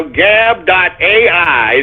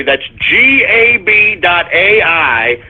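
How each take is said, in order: First: Said in the usual way. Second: G A B spelled out letter by letter, slowly. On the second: Shown as a demonstration. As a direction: spell G A B out one letter at a time.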